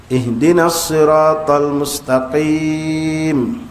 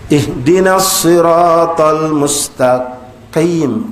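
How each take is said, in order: No difference in how they are said.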